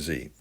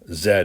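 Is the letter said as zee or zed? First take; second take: zee; zed. First: The letter is said as zee. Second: The letter is said as zed, Canadian style.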